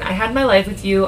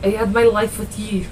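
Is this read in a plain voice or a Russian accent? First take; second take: plain; Russian accent. First: It is read in the speaker's own plain accent. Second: It is read with an attempted Russian accent. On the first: "Should I have read that in a Russian accent?" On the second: "It's not right"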